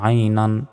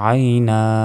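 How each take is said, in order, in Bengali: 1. শব্দটি একটি ন-ধ্বনি দিয়ে শেষ হয়। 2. শব্দটি একটি দীর্ঘ স্বরধ্বনি দিয়ে শেষ হয়।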